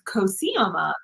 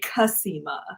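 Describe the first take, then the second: First: It is said with full, non-Californian vowels. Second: It is said with lazy Californian vowels.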